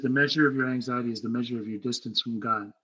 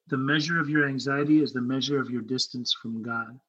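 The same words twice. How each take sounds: First: It is said at a normal pace. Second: It is said slowly and deliberately.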